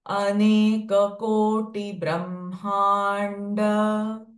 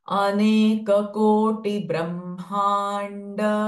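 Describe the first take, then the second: The two takes are said the same way.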